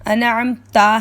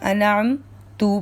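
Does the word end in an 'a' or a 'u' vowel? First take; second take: a; u. First: The word ends with an a vowel. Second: The word ends with a u vowel. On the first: The speaker calls it right. "अनअम ता है" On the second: The speaker calls it wrong. "पढ़ दिया"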